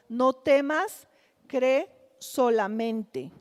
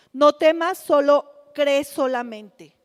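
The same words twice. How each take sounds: First: Unhurried, as if steadying a frightened father; gentle reassurance. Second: Louder, pressing each word; emphatic urging. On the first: Preacher voicing Jesus calming the frightened father, slow and gentle. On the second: Preacher urging the congregation with Jesus's words, loud and insistent. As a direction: call it out like a rallying cry. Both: Acted.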